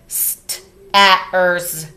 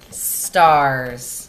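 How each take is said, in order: First: The a and r are sounded separately. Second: The a and r blend into one sound. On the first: The speaker calls it wrong. "we would read it like this" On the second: The speaker calls it right. "So then we go R"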